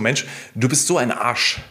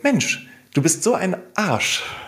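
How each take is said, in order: First: The tone sounds harsh and insulting. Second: The tone sounds warm and friendly. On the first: The words are meant as an insult. "Das könnten andere Menschen ja als eine Beleidigung empfinden" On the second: The words are meant as a friendly invitation. "eher wie eine Einladung klingt, anstatt eine Beleidigung"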